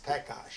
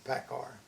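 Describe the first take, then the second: First: The name ends with an sh-like sound. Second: The name ends with a plain r sound. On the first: This is the original form of the name. "the original way is it came from Czechoslovakia, and the real pronunciation is Pekash" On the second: This is the adapted form used in English. "when you went into the English language, you know, you had to change your name. So we changed it to Pekar"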